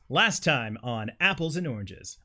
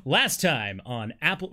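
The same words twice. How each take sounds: First: Slow, drawn-out TV recap announcer; lightly voiced trailer narrator. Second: Slow, booming TV recap announcer; lightly voiced trailer narrator. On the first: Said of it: "Announcer voice". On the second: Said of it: "All right, announcer voice". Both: Shown as a demonstration.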